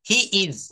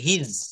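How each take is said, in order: First: It is said as two separate full words. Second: It is said as one contracted syllable.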